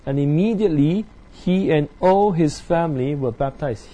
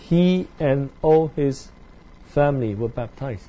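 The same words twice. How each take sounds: First: Said in the usual way. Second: "He" leaned on at the start, the whole line slowed down; stress on he. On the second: Shown as a demonstration.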